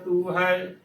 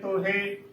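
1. ਇਹ 'u' ਫਿਰ 'ai' ਸੁਰ ਨਾਲ ਕਿਹਾ ਜਾਂਦਾ ਹੈ। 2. ਇਹ 'o' ਫਿਰ 'e' ਸੁਰ ਨਾਲ ਕਿਹਾ ਜਾਂਦਾ ਹੈ। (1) "ਤੂੰ ਹੈ ਸਹੀ ਉਚਾਰਨ ਹੈ" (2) "ਤੋਹੇ ਉਚਾਰਨ ਨਹੀਂ ਕਰਨਾ"

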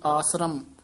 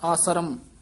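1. ਇਹ ਸ਼ਬਦ ਥੋੜਾ ਜਿਹਾ ਲੰਮਾ ਖਿੱਚ ਕੇ ਬੋਲਿਆ ਜਾਂਦਾ ਹੈ। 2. ਇਹ ਸ਼ਬਦ ਥੋੜਾ ਜਿਹਾ ਲੰਮਾ ਖਿੱਚ ਕੇ ਬੋਲਿਆ ਜਾਂਦਾ ਹੈ।

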